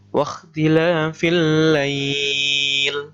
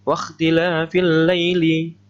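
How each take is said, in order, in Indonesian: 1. Kata terakhir ditahan panjang sebelum berhenti. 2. Kata terakhir pendek dan terus berlanjut. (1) "Kalau sampean wakof atau berhenti, ya, dibaca panjang" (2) "Kalau sampean wasolkan, sampean teruskan, dibaca pendek"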